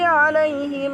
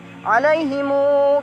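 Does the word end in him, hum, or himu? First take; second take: him; himu. First: The word ends with a short him. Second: The word ends with himu, the final vowel lengthened.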